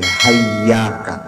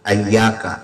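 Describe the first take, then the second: First: The word begins with an 'h' sound. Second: The word begins with an 'a' vowel. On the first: "hamzahnya diganti dengan ha" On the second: "hamzahnya dibaca fathah"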